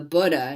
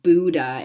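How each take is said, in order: First: The first vowel is short, as in 'good'. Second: The first vowel is long, as in 'food'. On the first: The speaker calls it right. "it's the Buddha, ... like the vowel sound in the word good" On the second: The speaker calls it wrong. "not Buddha in Buddhism ... not in the word food"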